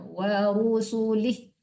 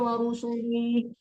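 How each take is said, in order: First: The vowel in 'li' is kept short. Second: The vowel in 'li' is drawn out long. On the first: The speaker calls it right. "Tidak panjang linya wa rusulih" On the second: The speaker calls it wrong. "jangan wa rusulih"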